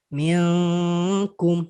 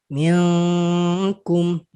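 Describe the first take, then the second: Both takes have the same delivery.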